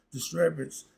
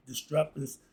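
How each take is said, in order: First: "disturbance" said properly, self-correcting; "disturbance" fixed with a clear "-turb-" sound; corrected word. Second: "disturbance" misread as "tisstruppance", first try; "disturbance" stumbled over with a "p" sound in the middle; misread word. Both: Shown as a demonstration.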